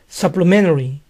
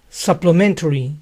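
First: The T sound is dropped. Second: The T sound is clearly pronounced. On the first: "También se oye sin la T" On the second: "Suplementario se dice supplementary"

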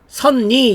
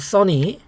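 First: The middle n sound is doubled, sun-ny. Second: The middle n sound is single, su-nny. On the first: The speaker calls it wrong. "선니 이러면 안 되고" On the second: The speaker calls it right. "선입니다"

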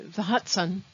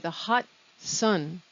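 First: The words run together without a break before 'sun'. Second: The words are split with a break before 'sun'. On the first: The speaker calls it wrong. "We don't say the hot sun because we can't understand that" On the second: The speaker calls it right. "We say the hot sun"

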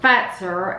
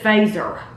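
First: The name is said with Finnish pronunciation. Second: The name is said with English pronunciation. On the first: The speaker calls it right. "But it's pronounced Fazer" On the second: The speaker calls it wrong. "We would have said Fazer"

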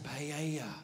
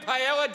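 First: The word has a Spanish-style pronunciation. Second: The word has an Anglicized Australian pronunciation. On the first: "that's probably the correct pronunciation" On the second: "Say that at a footy club and they're like, you mean paella"

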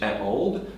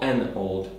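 First: A bare vowel comes straight before old. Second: An n sound links into old. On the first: The speaker calls it wrong. "żeby nie mówić a old" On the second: The speaker calls it right. "tylko an old lady"

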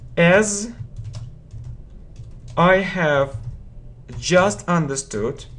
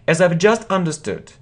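First: The word have is said in full. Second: The word have is contracted to 've. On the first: The speaker calls it wrong. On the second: The speaker calls it right.

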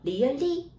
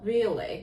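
First: The pitch rises at the end. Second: The pitch drops sharply at the end. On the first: The speaker calls it wrong. "이렇게 하면 안 돼" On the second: The speaker calls it right. "이렇게 콕 내려"

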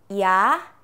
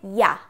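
First: The sound is said at a slower pace. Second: The sound is said at a faster pace.

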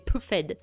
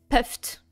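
First: It is said with a French accent. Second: It is said with an English accent.

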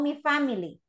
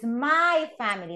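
First: The first word sounds like 'mee'. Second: The first word sounds like 'my'. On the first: The speaker calls it wrong. "no mi family, because I heard some of you saying mi family" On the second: The speaker calls it right. "It's my family"

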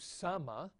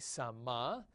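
First: The stress is on the first syllable. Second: The stress is on the last syllable. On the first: It is the perfect form. "again the perfect" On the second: It is the participle form. "the accent moving down"

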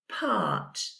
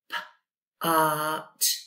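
First: The word is said quickly as one smooth sound. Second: The word is said slowly in separate sounds. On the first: "Say it faster" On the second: "So we've got p-art"

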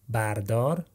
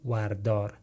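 First: The word begins with a 'ba' sound. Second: The word begins with a 'wa' sound. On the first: "Either you want to go with ba" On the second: "or with wa"

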